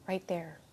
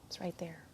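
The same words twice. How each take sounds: First: Said in the usual way. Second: Whisper. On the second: Acted. Repeats phrase, whispered echo.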